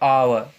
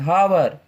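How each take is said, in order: First: The word starts with a vowel, no h. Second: The word starts with an audible h sound. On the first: The speaker calls it right. "यहाँ पे again silent हो जाएगा" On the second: The speaker calls it wrong. "इसे हावर पढ़ते हैं"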